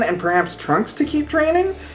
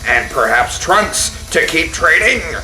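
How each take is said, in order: First: It is read in a plain, normal speaking voice. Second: It is read in a dramatic announcer-style voice.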